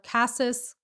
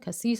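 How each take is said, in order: First: It is said with an American pronunciation. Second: It is said with a French pronunciation. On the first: "American pronunciation" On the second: "the French pronunciation"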